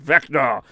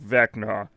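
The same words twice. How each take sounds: First: It is said in an angry tone. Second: It is said in a sad tone.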